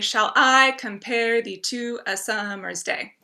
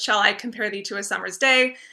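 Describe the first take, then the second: First: Every second syllable is stressed, da-dum. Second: It is read naturally, without a marked beat.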